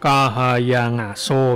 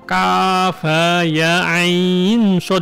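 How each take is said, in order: First: The letters are blended together into word-like sounds. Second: Each letter is spoken separately by its name. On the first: The speaker calls it wrong. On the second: The speaker calls it right.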